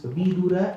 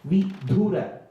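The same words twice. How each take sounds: First: The d sound is plain, without a breath. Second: The d sound is aspirated, with a breath. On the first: It is the name of the wise son. The speaker calls it right. "It is Vidura" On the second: It sounds like the word for a widower. The speaker calls it wrong. "and not Vidura"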